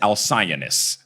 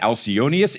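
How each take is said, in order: First: The name ends with a short -is sound. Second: The name ends with a full -ius syllable.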